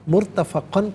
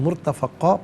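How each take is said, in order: First: The word ends with an n sound. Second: The word ends with a long a vowel. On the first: The reading continues without stopping. "मुर्तफ़क़न पढ़ेंगे" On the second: The reader stops at this word. "वफ़ की सूरत में मुर्तफ़क़ा पढ़ा जाएगा"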